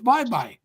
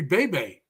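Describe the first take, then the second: First: Both syllables sound like 'bye'. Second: Both syllables sound like 'bay'. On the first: It follows the local Filipino pronunciation. The speaker calls it right. "It's their city, so it's bye bye" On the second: It follows the American reading of the spelling. The speaker calls it wrong. "if we were pronouncing Filipino uh, places the way we would pronounce them"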